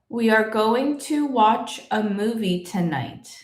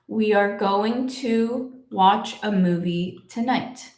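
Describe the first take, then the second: First: It is said faster, as one smooth flow. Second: It is said slowly, with pauses between words.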